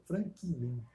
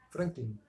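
First: Franklin drawn out slowly as "Fran-ki-lin"; three-syllable Franklin. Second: Franklin run together as "Frank-lin", softer and lower; two-syllable Franklin. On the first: Testing the syllable count for a friend, Franklin in three slow syllables. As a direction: say Franklin with an extra "i" between k and l. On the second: Comparing pronunciations for a friend, Franklin in two quick syllables. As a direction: say Franklin compactly, with no vowel between k and l. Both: Shown as a demonstration. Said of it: "também poderia ser considerado trissílabo".

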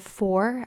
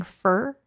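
First: Said in the usual way. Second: "fur" with a flat r-coloured vowel for "for"; fur pronounced fur. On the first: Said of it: "instead of for, I've been saying fur". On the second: Shown as a demonstration. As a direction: say "fur" instead of "for". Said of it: "I've been saying fur".

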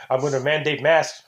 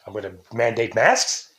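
First: "I'm gonna mandate masks" as a firm announcement; stated inflection. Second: "mandate masks" turned into a question, lower pitched; questioning inflection. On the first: Host showing inflection on a mandate, stated MASKS. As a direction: declare "mandate masks" as settled. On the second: Host showing inflection on a mandate, questioning MASKS. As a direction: lift "masks" at the end like asking. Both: Shown as a demonstration. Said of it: "gonna use inflection".

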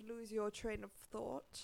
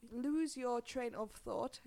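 First: Said in the usual way. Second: Slowly drawn-out English phrase; slow careful repeat. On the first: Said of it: "Hyvä tää sössötys jälleen". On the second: Shown as a demonstration. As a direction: say "Lose your train of thought" slowly, word by word. Repeats the phrase after slurring it.

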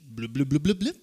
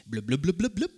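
First: Blubs that start lower and rise; deeper bubbling noise. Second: Light bubbly blub-blub sound; bubbling noise. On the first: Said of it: "can you start a little deeper". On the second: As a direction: show the crowd a bubbling spring sound. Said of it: "you're gonna make this noise". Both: Shown as a demonstration.

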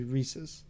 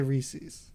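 First: "Reese's" with a short, unstressed second syllable, REE-suhz; Reese's, dad's way. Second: "Reese's" said the speaker's own way, drawn out. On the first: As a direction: say "Reese's" softly to rhyme with pieces. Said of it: "my dad and sometimes I and myself will say". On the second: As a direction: say "Reese's" slowly as your usual version. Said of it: "I know people who say the other way". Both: Shown as a demonstration.

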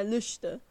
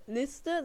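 First: Lüste, rounded ü in place of the i of Liste; quoting the teacher's dialect: Lüste with a rounded ü. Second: Said in the usual way. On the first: Retold or imitated. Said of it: "statt Liste, sagt er Lüste". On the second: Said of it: "statt Liste".

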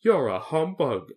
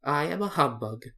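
First: Slow, slightly raised accusation; hurt, drawn-out reproach; grieved tone. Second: Mildly self-satisfied, slightly high; a touch of pride in confessing; pleased admission. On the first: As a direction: accuse sorrowfully, dragging the words. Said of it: "said the Scarecrow in a grieved tone". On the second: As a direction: own up to it contentedly. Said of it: "as if it pleased him". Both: A narrator's reading.

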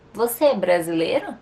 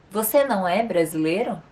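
First: "Você é brasileiro?" asked with the voice rising on "é"; questioning rise. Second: "Você não é brasileiro?" asked with the stress on "Você"; negative question. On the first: Teacher demonstrates a yes-no question to students, with a rising tune. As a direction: ask it as a real question, lifting at the end. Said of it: "Fazendo uma pergunta de modo afirmativo". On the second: Teacher demonstrates a negative question to students, stressing "Você". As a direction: ask it doubting, leaning on "Você". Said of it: "na segunda negando". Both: Shown as a demonstration.

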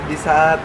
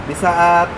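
The two takes are said the same way.

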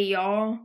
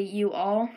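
First: Y'all said as one gliding syllable, yawl; Southern contraction y'all, said casually. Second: You all said as two clear separate words; careful proper you all, no contraction. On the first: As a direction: drop the you, just y'all in a Southern way. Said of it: "so here in the South". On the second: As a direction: spell it out, you then all. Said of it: "People in New York might say you all". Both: Shown as a demonstration.

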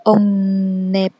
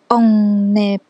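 No difference in how they are said.

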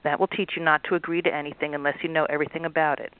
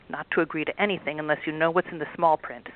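First: A mild mock of the troll's gruff lecture; mimicking gruff troll. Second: A hint of a gruff boss troll lecturing; lightly voiced big troll. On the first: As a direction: tease him back in his own gruff tone. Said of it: "mimicked his gruff tone". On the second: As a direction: scold the girls like a smug boss. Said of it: "said the biggest and ugliest troll".

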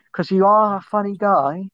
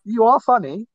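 First: Insincere. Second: Higher, earnest correction with weight on "are"; mean it this time, lift "are"; sincere. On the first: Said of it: "I didn't sound sincere there". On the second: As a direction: make the compliment sound genuine. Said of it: "I didn't sound sincere there, but". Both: Real, not acted.

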